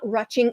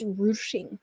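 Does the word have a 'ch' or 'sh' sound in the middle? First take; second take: ch; sh. First: The middle consonant is a 'ch' sound. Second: The middle consonant is an 'sh' sound. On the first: The speaker calls it wrong. "It's it's not rutching" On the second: The speaker calls it right. "it's ruching, ruching. Or it's like roosh"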